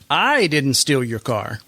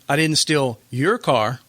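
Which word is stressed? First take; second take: I; your. First: The word 'I' carries the main stress. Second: The word 'your' carries the main stress. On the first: Someone else stole it, and the speaker knows who. "I'm inferring that I didn't steal it, but I do know who, who did" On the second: The speaker stole someone else's car instead. "but you stole somebody else's? That's right"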